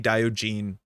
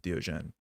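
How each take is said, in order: First: The name is said in a non-French way. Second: The name is said the French way. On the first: The speaker calls it wrong. "I think I used to say Diogene a bit different" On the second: The speaker calls it right. "I have to say it the French way"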